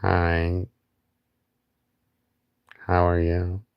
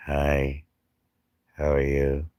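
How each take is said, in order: First: Silly greeting voice. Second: Said in the usual way. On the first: Pretend. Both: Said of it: "I don't know why I do shit like that".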